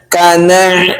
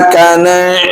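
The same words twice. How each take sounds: Both takes have the same delivery.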